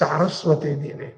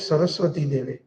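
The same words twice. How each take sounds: First: The words end in an 'ay' vowel. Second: The words end in an 'ee' vowel. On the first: The speaker calls it right. "it is Saraswati Devi. It is grammar" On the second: The speaker calls it wrong. "I've heard a lot of them say"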